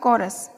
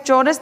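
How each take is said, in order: First: The word begins with a k sound. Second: The word begins with a ch sound. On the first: It is the proper pronunciation. The speaker calls it right. "लेकिन इसका उच्चारण होगा कॉरस" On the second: It is read the way it is spelled. The speaker calls it wrong. "हमें जो दिखाई दे रहा है वो चौरस दिख रहा है"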